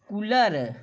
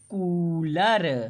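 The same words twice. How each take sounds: First: The first vowel is cut short. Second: The first vowel is held long. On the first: The speaker calls it wrong. "यदि छोटा ऊ की मात्रा लगाएंगे तो ये हो जाएगा" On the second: The speaker calls it right. "बड़ा ऊ की मात्रा है तो ये हुआ कू"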